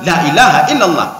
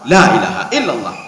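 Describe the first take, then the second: First: The vowel in 'la' is clipped short. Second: The vowel in 'la' is drawn out long. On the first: The meaning is distorted. The speaker calls it wrong. "la-nya pendek" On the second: It denies any god besides the one God. The speaker calls it right. "la-nya panjang"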